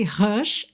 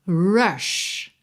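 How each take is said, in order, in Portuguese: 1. Começa com um som de h aspirado. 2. Começa com um som de r com a língua enrolada. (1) "Se eu estiver falando português" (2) "o som do R em inglês é o som daquela língua enrolada"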